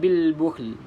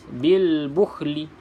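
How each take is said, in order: First: It ends with a clear l and no vowel. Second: It ends with l followed by a vowel. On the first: The speaker calls it right. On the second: The speaker calls it wrong.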